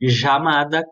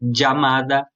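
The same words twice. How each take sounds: First: The word begins with a soft zh sound. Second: The word begins with a dj sound. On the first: "como se fosse um J" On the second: "como se fosse um D e um J"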